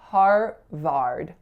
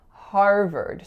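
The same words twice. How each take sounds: First: Both syllables use the same 'ar' vowel sound. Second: The two syllables have different vowel sounds. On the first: The speaker calls it wrong. "what I hear a lot for this word is Harvard. R R" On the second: The speaker calls it right. "there are two vowel sounds and they're different sounds"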